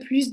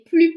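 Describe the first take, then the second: First: The final s is pronounced as s. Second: The final s is silent. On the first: "on prononce le S de plus" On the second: "on ne va pas prononcer le S de plus"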